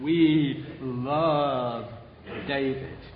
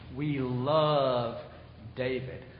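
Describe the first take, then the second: First: It is said in a Southern American accent. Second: It is said in the speaker's usual accent.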